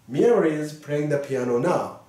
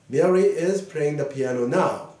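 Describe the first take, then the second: No difference in how they are said.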